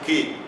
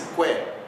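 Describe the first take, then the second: First: The u is silent, giving a plain k sound. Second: The u is sounded, giving a kw sound. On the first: The speaker calls it wrong. "você não pronuncia que, como em português" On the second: The speaker calls it right. "Pronuncia-se que"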